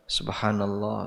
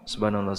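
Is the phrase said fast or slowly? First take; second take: slowly; fast. First: It is said slowly and carefully. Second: It is said very fast and clipped. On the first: The words are recited earnestly and in full. The speaker calls it right. "kalau dibaca serius ya ... tidak terlalu cepat" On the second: Parts of the words get lost. The speaker calls it wrong. "kalau dibaca cepat ya, barangkali ada yang hilang"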